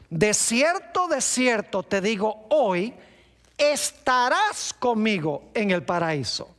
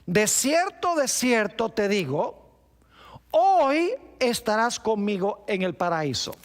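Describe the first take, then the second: First: The pause comes after the word 'hoy'. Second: The pause comes before the word 'hoy'.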